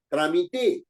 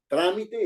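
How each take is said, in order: First: The stress is on the last syllable. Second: The stress is on the first syllable. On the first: "tiene la mayor fuerza de voz en te, es una palabra aguda" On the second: "es una palabra esdrújula"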